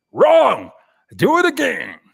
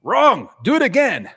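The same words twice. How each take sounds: First: Much higher and louder mock scolding; mock harsh verdict. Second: High, loud mock command; bossy to the AI. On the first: Host playing a harsh portfolio reviewer, loud mock verdict. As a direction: shout down a bad portfolio. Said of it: "telling people". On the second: Host bossing the AI around, mock loud command. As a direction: bark it at the machine. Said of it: "It's just like".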